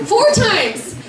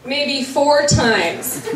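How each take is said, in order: First: FOUR pitched way up, then falling; emphatic repeat. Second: Said in the usual way. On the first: Real, not acted. Friend bragging on Violet's cleaning, emphatic high FOUR in "Four times". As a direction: hit FOUR high, in amazement.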